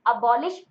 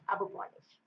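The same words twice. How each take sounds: First: Said in the usual way. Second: Soft, quick "अब पॉलिश" with a P; split sound-alike. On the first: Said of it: "अबॉलिश में sound आता है". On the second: Shown as a demonstration. Teacher closing the memory trick, "अब पॉलिश" softly split. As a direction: drop the volume on "अब पॉलिश", as two words. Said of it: "sound आता है अब पॉलिश".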